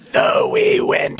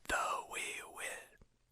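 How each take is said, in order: First: An airy, loose whisper with free-flowing breath. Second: A harsh, compressed whisper with held-back air. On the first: The speaker calls it wrong. "Not like that" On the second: The speaker calls it right. "holding back air even as we're whispering to make the whisper a bit harsher sounding"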